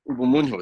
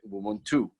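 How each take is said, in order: First: The middle consonant sounds like an H. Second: The middle consonant is a clear NT cluster. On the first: This is the Kinyarwanda form. "in Kinyarwanda, the it's actually pronounced Ubumunhu, so that N T is like a H" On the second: This is the form in other Bantu languages. "in other Bantu languages, it's just as you pronounce it"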